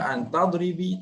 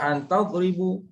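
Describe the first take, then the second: First: The last word ends in an i vowel. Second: The last word ends in an u vowel. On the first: "Jangan baca an tadribi, tak boleh" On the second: "Jangan baca an tadribu"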